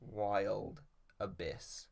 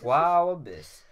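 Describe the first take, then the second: First: The first word has a clear L sound. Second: The first word has no L sound. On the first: "I'm consciously trying to say it differently" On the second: "I pronounce it like Wow Abyss"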